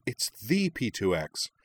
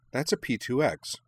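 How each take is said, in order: First: "the" said as "thee", drawn out slowly; stress on THE. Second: Said in the usual way. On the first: A narrator's reading. Minami realising which famous car it is, stress on "the". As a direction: hit "the" as a long, emphatic "thee".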